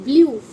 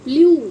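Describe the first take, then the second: First: The vowel is a yoo sound. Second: The vowel is a yoo sound.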